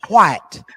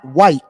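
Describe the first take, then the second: First: The word begins with a breathy 'hw' sound. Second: The word begins with a plain 'w' sound. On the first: The speaker calls it right. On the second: The speaker calls it wrong.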